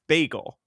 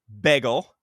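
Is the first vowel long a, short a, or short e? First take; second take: long a; short e. First: The first vowel is a long a. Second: The first vowel is a short e. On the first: "B A G E L, which is the right thing" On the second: "B E G G L E"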